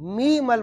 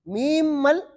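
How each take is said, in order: First: The first meem is merged into the following mal. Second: The first meem is said fully before mal. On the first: The speaker calls it right. "मी मल बना" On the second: The speaker calls it wrong. "मीम मल नहीं बना"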